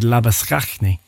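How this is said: The name is pronounced the South African way. "It would be said Labuschagne"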